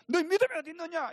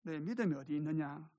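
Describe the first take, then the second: First: High, loud, fast rebuke; mock scolding. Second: Mild, tender question; gentle chiding. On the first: Preacher showing how the Lord does not speak, scolding. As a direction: scold sharply, as a demonstration. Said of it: "야단을 치면서". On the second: The Lord tapping a disciple's shoulder, gently asking. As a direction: ask it kindly, without any scolding. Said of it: "어깨를 살짝 치시면서". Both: Shown as a demonstration.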